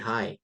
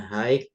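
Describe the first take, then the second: First: The word ends in a plain vowel sound. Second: The letters gh are sounded at the end. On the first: The speaker calls it right. "jadi G H-nya nggak usah dibaca" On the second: The speaker calls it wrong. "Bukan high gitu, bukan"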